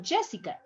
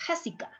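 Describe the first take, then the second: First: "Jessica" said with English J; English pronunciation. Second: "Jessica" said HESS-ee-ka, J as breathy H; mistaken Spanish J. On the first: Teacher says the name she prefers, English J pronunciation. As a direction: start "Jessica" with a soft J sound, not H. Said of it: "he wants to be called Jessica". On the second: Teacher shows the name she rejects, Spanish H pronunciation. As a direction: put an H in place of the J in "Jessica". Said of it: "She doesn't want to be called". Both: Shown as a demonstration.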